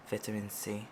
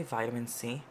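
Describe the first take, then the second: First: "Vitamin" said VIT-uh-min; first syllable of "Vitamin" with the short i of "bit"; short-I pronunciation. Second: "vitamin" said VY-tuh-min; first syllable of "vitamin" rhyming with "eye"; long-I pronunciation. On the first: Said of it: "I think I say vitamin C". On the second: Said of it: "I think I say". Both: Shown as a demonstration.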